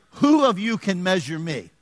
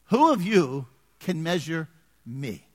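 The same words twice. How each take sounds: First: Slow, emphatic challenge; voice of God. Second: Very slow, with pauses splitting "Who of you / can measure / me"; voice of God. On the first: Pastor voicing God's question to the congregation, emphatic challenge. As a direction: put force on the opening WHO. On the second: Pastor repeating God's question, slow and weighty. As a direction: let "me" stand alone after a pause. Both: Acted. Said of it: "God is saying".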